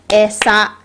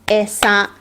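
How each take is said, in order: Both takes have the same delivery.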